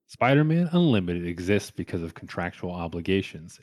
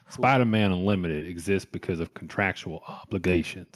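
First: It is spoken in the speaker's normal accent. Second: It is spoken in a put-on southern accent.

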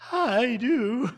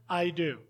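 First: It is said in a scared, childlike voice. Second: It is said in a steady, confident voice.

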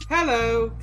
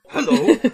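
First: It is said in a normal reading voice. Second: It is said in a barking dog voice.

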